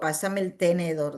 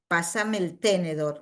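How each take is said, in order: First: The stress in tenedor is on the middle syllable. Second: The stress in tenedor is on the first syllable. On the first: "no digo" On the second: "No digo"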